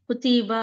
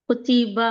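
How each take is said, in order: The two takes are said the same way.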